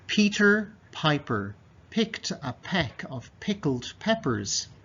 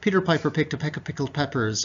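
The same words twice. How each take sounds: First: The sentence is read at a slow pace. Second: The sentence is read at a fast pace. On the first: "one more time slowly" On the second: "And quickly"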